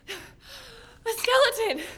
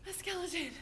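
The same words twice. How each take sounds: First: High, loud, drawn-out gasped exclamation; terrified gasp. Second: Hushed, breath-short disbelief; stunned fear. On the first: Girl naming what climbed out, terrified cry. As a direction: cry it out slowly in horror. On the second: Girl repeating it to herself, hushed stunned fear. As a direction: say it small and soft, in shock. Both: Acted.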